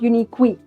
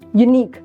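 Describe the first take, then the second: First: The word ends in an extra 'kee' sound. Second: The word ends in a plain 'k' sound. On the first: The speaker calls it wrong. "not uniqui" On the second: The speaker calls it right. "pronunciation end"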